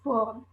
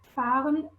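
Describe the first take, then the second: First: The first vowel is an o sound. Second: The first vowel is an a sound. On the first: "the change from A to O" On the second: "instead of fahren"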